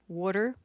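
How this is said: It is said in a Philadelphia accent.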